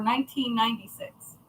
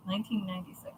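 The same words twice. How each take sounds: First: Said in the usual way. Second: "Nineteen ninety-six" muttered much softer, as an aside; quiet repeat. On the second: Shown as a demonstration. Correcting her own year to her mom, soft aside. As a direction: drop the voice and repeat "Nineteen ninety-six" under your breath.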